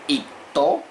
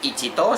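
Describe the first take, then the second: First: The word starts with a short, clipped 'it'. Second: The word starts with a full 'ichi'. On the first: The speaker calls it right. "sino el primero sería ito" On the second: The speaker calls it wrong. "No se dice ichito"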